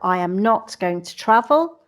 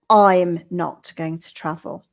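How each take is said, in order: First: The subject and verb are said in full. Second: The subject and verb are said contracted. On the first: "the long form" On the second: "the contracted form"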